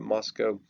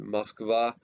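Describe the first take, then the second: First: The city name is said the British way. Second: The city name is said the Russian way. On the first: "In England, they tend to call it Moscow" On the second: "typically Russians call it Moskva"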